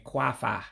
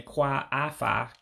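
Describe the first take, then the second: First: "kwafa" run together as KWAH-fah; contracted form. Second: "kwa afa" as two words, both A vowels sounded; uncontracted form. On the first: Teacher shows learners the contraction, one A eliminated. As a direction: say "kwafa" with the second A dropped. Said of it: "you're basically just saying kwafa". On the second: Teacher shows the form before elimination, fully separated. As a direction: say "kwa afa" in full, kwah AH-fah. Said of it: "instead of saying kwa afa". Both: Shown as a demonstration.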